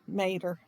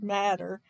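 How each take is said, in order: First: The first vowel sounds like the one in 'mate'. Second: The first vowel sounds like the one in 'mat'. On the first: The speaker calls it right. "I know it's Mater" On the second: The speaker calls it wrong. "I just out of habit said Matter"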